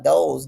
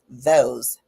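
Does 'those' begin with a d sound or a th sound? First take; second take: d sound; th sound. First: It begins with a d sound. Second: It begins with a th sound. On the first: The speaker calls it wrong. "leaving your tongue flat in your mouth" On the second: The speaker calls it right. "instead of saying those"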